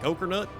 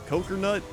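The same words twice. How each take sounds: First: It is said in an American Southern accent. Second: It is said in an attempted Australian accent. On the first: "I did that in a southern accent" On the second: "She was like"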